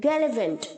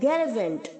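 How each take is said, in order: The two takes are said the same way.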